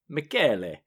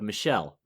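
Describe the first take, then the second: First: The name is said the Italian way. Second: The name is said the English way. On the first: "it's pronounced" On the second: "what looks like the spelling of"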